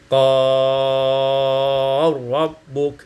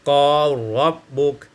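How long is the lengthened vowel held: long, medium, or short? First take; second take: long; short. First: The lengthened vowel is held long. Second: The lengthened vowel is held short.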